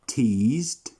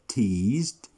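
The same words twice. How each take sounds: The two takes are said the same way.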